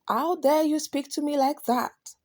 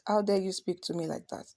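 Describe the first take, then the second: First: It is said angrily, with strong emotion. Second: It is said flatly, like a plain statement.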